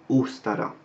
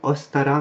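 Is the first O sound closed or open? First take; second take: closed; open. First: The first vowel is a closed O. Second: The first vowel is an open O. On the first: The speaker calls it right. "mais dans Ostara" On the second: The speaker calls it wrong. "On n'est pas dans Ostara"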